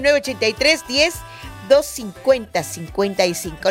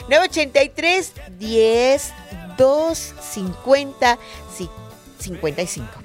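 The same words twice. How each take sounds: First: The number is said fast. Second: The number is said slowly.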